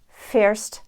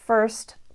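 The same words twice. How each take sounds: First: A separate vowel is sounded before the r. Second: The vowel is a simple merged er sound. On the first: "the Dubliner might say" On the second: "we will have the same phoneme"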